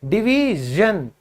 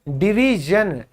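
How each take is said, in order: No difference in how they are said.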